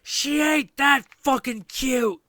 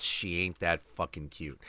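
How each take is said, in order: First: High, loud mock-angry mother. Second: Said in the usual way. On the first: Mother on the bus cutting down her own kid, angry mock yell. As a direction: imitate an angry mother yelling it, high and drawn out. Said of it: "this angry voice saying".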